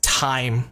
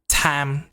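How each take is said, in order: First: The vowel glides from one sound to another. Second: The vowel is a single flat 'ah' sound. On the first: The speaker calls it right. "this word is pronounced time" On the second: The speaker calls it wrong. "a lot of Vietnamese people say something like tam"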